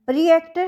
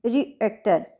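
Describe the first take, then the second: First: Said in the usual way. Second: "रिएक्टर" with the weight on its second syllable, then falling; second-syllable stress. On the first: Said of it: "यहाँ second syllable के ऊपर हमारा". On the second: Shown as a demonstration. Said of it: "second syllable के ऊपर हमारा stress है". ("रिएक्टर" के दूसरे सिलेबल पर ज़ोर)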